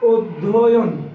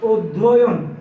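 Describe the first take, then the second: The two takes are said the same way.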